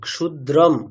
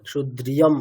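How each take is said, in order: First: There is no 'y' glide after 'dr'. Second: A 'y' glide is added after 'dr'. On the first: The speaker calls it right. "ওখানে ইয়কার নেই" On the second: The speaker calls it wrong. "আপনি যেটা উচ্চারণ করছেন সেটা ইয়কার আছে মনে হচ্ছে"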